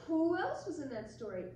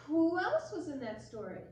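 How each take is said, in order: Both takes have the same delivery.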